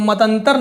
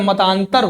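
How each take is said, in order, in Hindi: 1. दूसरे अक्षर में ह्रस्व स्वर है। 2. दूसरे अक्षर में दीर्घ स्वर है। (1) "नहीं होता है" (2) "होता है"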